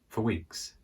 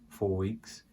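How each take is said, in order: First: The word 'for' is weak and reduced. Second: The word 'for' is strong and full. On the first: "not very strong for" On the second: "you can say it like that, but it would be for emphasis"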